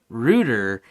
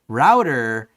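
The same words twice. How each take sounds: First: The first vowel sounds like 'boot'. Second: The first vowel sounds like 'out'. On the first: "they also say it roots things" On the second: "router is how I say it"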